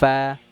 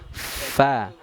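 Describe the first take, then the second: First: The consonant is made with both lips together. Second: The consonant is made with teeth on lower lip. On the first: The speaker calls it wrong. "bukan bagian luar ya, bukan fa" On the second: The speaker calls it right. "tapi fa"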